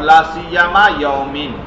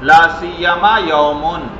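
First: The last word ends in an -in sound. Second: The last word ends in an -un sound. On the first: The word is in the genitive case. "جر بھی" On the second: The word is in the nominative case. "رفع بھی"

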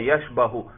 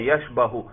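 First: The vowel after the b is a. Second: The same.

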